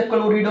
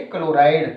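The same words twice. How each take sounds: First: क्लोरिडो as the name not to use here; teacher marks क्लोरिडो as wrong for chloride outside; wrong name shown. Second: क्लोराइड with a clear आइ, kə-lo-raid; teacher gives क्लोराइड as the right form; correct name shown. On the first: Teacher to students, showing the form not used outside: क्लोरिडो, marked as wrong. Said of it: "इसे क्लोरिडो नहीं बोलेंगे". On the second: Teacher to students, giving the right name: क्लोराइड, said clearly. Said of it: "इसे बोलेंगे क्लोराइड". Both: Shown as a demonstration.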